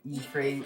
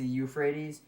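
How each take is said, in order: First: The word is said in a garbled, distorted form. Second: The word is said in its usual standard form. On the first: The speaker calls it wrong. "I was butchering it and saying the" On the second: The speaker calls it right. "I know it's the Euphrates"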